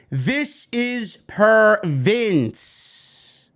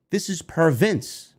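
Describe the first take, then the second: First: "This is per Vince" very slowly, each word stretched; emphatic, drawn-out delivery. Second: Said in the usual way. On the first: Real, not acted. Commentator stresses it, then repeats.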